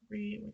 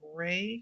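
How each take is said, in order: First: The vowel sounds like 'ee' in 'see'. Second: The vowel sounds like 'ay' in 'day'. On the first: "I've heard it re" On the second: "I'm going to say Ray because I've heard it that way"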